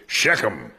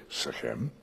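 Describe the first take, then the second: First: "Shechem" stressed on the first syllable; American pronunciation. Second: "Shechem" stressed on the second syllable; Hebrew pronunciation. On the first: Teacher showing the congregation how Americans say it, American pronunciation of "Shechem" with first-syllable stress. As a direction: hit the first half of "Shechem", second half reduced. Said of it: "typical American pronunciation is Shechem".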